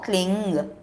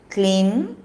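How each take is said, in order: First: The word ends with an ng sound. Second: The word ends with an m sound. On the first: "That is Gakara pronunciation" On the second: "or say Makara"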